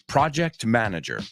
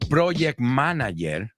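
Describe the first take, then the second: First: The first vowel of 'project' is an 'ah'. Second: The first vowel of 'project' is not 'ah'. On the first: The speaker calls it right. "it's pra, ah, ah, project manager" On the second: The speaker calls it wrong. "it's not project manager"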